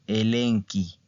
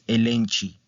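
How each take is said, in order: First: The middle consonant sounds like a k. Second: The middle consonant sounds like English ch. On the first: The speaker calls it right. "es elenqui" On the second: The speaker calls it wrong. "Este no es elenchi"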